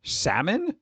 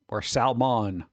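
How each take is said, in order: First: Salmon? said as sam-un, no L, rising like a question; questioning pronunciation. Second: Salmon said sal-mon with a clear L, falling; Salmon with the L sounded and a flat end; pronouncing the L. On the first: Checking how the corrector said it, Salmon? with no L. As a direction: try Salmon? with a silent L and a puzzled lift. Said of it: "said it was pronounced salmon". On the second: Offering the other version, Salmon with the L said. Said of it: "you don't pronounce the L in salmon". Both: Shown as a demonstration.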